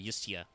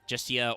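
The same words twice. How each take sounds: First: The word begins with a Y sound. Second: The word begins with a J sound.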